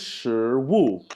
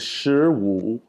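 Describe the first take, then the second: First: It is said with the tones meaning food. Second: It is said with the tones meaning fifteen. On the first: It means food. "the word for food is shi wu" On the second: It means fifteen. "fifteen in Chinese is shi wu"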